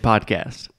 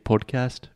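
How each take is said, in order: First: It is said with an American open 'ah' vowel. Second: It is said with a British-style rounded first vowel.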